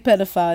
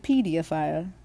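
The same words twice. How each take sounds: First: The word is said in an American accent. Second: The word is said in a British accent. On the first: "They don't say pedophile" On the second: "They say pedophile"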